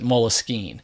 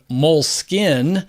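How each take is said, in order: First: It is said with a French-style pronunciation. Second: It is said with a plain English pronunciation. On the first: "it was a French word, Moleskine, which is why I pronounce it Moleskine" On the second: "the word moleskin, the English word"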